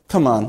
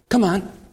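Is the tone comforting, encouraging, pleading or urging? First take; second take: comforting; encouraging. First: It sounds like soothing comfort. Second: It sounds like gentle encouragement to a child.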